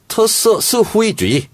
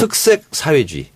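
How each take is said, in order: First: The phrase is said with Mandarin Chinese pronunciation. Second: The phrase is said with Korean pronunciation. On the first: "제일 많이 강조한 단어가 뭐였냐면" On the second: "번역해 주시죠"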